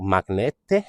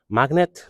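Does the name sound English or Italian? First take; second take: Italian; English. First: It is said with an Italian-sounding final vowel. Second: It is said like the plain English word magnet. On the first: "that just sounds Italian" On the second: "obviously it's not magnet because it's got two T's"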